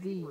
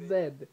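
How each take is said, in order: First: The letter is pronounced ending in an ee vowel. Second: The letter is pronounced with a final d sound. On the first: The speaker calls it right. "It's Z" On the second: The speaker calls it wrong. "It's not Zed"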